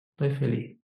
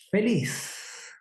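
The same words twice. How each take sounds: First: A lower, half-hearted "Estoy feliz"; a joyless "Estoy feliz" from a glum face; unconvincing happy. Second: "Feliz" said with real cheer, falling at the end; mean it when you say you're happy; a sincerely happy "Feliz"; convincing happy. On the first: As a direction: say you're happy without meaning it. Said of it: "Con esa cara no le van a creer". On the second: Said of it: "está transmitiendo el sentido que quiere". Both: Shown as a demonstration.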